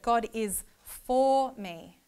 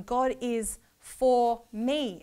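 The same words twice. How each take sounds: First: Slow "God is for me" with the weight on "is"; stress on IS. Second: Slow "God is for me", "for" louder and drawn out; stress on FOR. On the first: Teacher shows the next word of the verse, slow stress on "is". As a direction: linger on "is" and say it all slowly. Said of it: "Next word". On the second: Teacher shows the last word of the verse, slow stress on "for". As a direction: press on "for" and take it all slowly. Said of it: "But the last one". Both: Shown as a demonstration.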